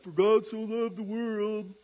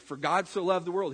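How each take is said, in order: First: It is said in a mocking, taunting tone. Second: It is said sincerely, like preaching.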